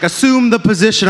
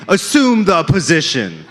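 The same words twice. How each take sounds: First: Doctor's order. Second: Slow sultry mock order. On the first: Retold or imitated. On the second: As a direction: stretch it out, teasing. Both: Doctor voiced in bit.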